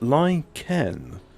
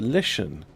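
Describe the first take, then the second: First: The middle consonant is a 'k' sound. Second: The middle consonant is an 'sh' sound. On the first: "How is a C H a K sound?" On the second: "I would say it was a Lishan"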